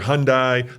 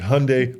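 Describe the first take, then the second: First: It is said not rhyming with Sunday. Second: It is said to rhyme with Sunday. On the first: This is how many people still say it. The speaker calls it wrong. "yet you still hear Hyundai" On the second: This is how the company says it. The speaker calls it right. "Hyundai like Sunday"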